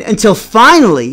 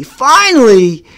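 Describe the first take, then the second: First: Said in the usual way. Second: "finally" stretched slow, higher and louder; storyteller stretching "finally" for suspense; drawn-out finally. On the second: Shown as a demonstration. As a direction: land "finally" like a drumroll. Dramatic build-up in story.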